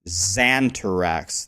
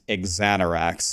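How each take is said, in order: First: The name begins with a Z sound. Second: The name does not begin with a Z sound. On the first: The speaker calls it wrong. "Everyone always calls me Xantarax. There's no Z" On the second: The speaker calls it right. "is how you're supposed to say it"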